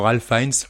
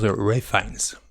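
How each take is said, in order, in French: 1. Le prénom se prononce avec un son L. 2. Le prénom se prononce sans son L.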